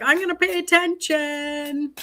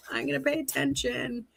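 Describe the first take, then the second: First: Higher, stressing pay, a firm note to herself; emphatic self-quote. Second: Softer, murmured repeat to herself; quiet echo. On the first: Tarot reader quoting her reaction to the cards, emphatic. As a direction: tell yourself firmly to pay attention. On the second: Tarot reader repeating her own vow under her breath, quiet. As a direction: let it fall away, half to herself. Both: Retold or imitated. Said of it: "So I'm like".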